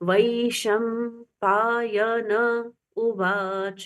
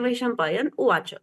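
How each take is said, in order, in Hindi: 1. 'n' ध्वनि स्वर के साथ पूरी बोली जाती है। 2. 'n' ध्वनि अपने स्वर के बिना आधी बोली जाती है। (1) "जब हम पढ़ते हैं तब न पूरा बोला जाना चाहिए" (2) "हम बोलचाल की भाषा में बोलते हैं ... न आधा बोल दिया"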